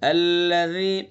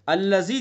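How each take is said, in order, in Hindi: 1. बीच का व्यंजन नरमी से बोला जाता है। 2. बीच का व्यंजन j की तरह सख्ती से बोला जाता है। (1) "नरमी से" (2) "अल्लज़ी जैसे हमने पढ़ा तो ये गलत हो जाएगा"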